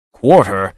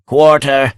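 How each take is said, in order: First: Frenzied echo. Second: High, gasping cry for mercy; gasped plea. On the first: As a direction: throw his plea back in his face. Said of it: "a quiver of frenzy in the stranger's voice". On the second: Wounded lord gasping for quarter, high and desperate. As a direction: beg for your life with the last breath. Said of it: "he gasped". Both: A narrator's reading.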